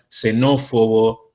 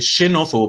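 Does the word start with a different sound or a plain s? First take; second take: plain s; different sound. First: The first sound is a plain s. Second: The first sound is an old non-s sound. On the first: The speaker calls it right. "vamos a pronunciar como S" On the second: The speaker calls it wrong. "ahí yo estoy usando un sonido antiguo"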